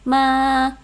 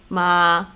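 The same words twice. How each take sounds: First: The syllable is said at a high pitch. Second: The syllable is said at a low pitch. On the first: "high tone would be ma" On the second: "low tone would be ma"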